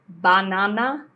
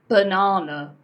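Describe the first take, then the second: First: The unstressed vowels are said as full vowels. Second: The unstressed vowels are reduced to a neutral uh. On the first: The speaker calls it wrong. "No. You do not pronounce this word banana" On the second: The speaker calls it right. "It's banana. Okay, you hear that er sound?"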